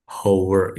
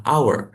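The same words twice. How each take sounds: First: "hour" with the H sounded, "how-er"; read as spelt. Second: "hour" with a silent H, "ow-er"; English pronunciation. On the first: Tutor showing the student the written form, "hour" with H sounded. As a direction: say "hour" with an audible h at the front. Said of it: "Tulisannya tuh seharusnya kalau". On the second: Tutor modelling the English reading, "hour" with silent H. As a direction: say "hour" starting straight on the vowel. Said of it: "cara bacanya dalam bahasa Inggris adalah". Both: Shown as a demonstration.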